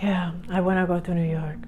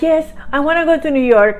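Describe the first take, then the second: First: It is said with a sigh, sounding gloomy. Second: It is said in a cheerful, upbeat tone.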